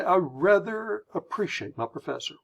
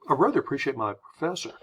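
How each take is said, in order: First: Higher, deliberate delivery leaning on "rather"; stately, stuck-up British-style emphasis; British-style slowing down. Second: Quick, casual American phrasing; rattled off in one breath; speeding through. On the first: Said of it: "The British would say". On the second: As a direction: speed through without leaning on "rather". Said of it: "speeding through the phrase". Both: Shown as a demonstration.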